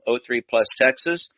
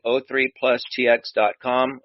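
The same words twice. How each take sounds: First: "Texas" said as the full state name; "oh three Plus Texas" with Texas said in full. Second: T X said as the letters T and X; "oh three plus T X dot com" read as single letters; spelled-out web address. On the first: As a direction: read "Texas" as the word, not the letters T X. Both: Shown as a demonstration.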